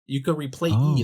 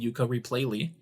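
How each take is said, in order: First: The final syllable has no L sound. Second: The final syllable has an L sound. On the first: The speaker calls it wrong. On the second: The speaker calls it right.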